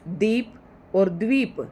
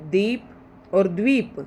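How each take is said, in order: First: Slow repeat, दीप with plain द, द्वीप with द्व. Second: Slow contrast of दीप and द्वीप, the व clearly sounded in द्वीप. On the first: Teacher repeating the pair for students, slowly. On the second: Teacher to students, carefully contrasting दीप and द्वीप. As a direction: say दीप then द्वीप slowly, rising on द्वीप. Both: Shown as a demonstration. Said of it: "दोनों का उच्चारण आपको अच्छे से करना है".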